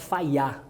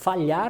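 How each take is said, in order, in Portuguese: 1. A consoante do meio é um som de glide semelhante a Y. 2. A consoante do meio é um som de L palatal. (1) "a gente fala falhar. Essa é a iotização" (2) "em vez de fa falarmos falhar"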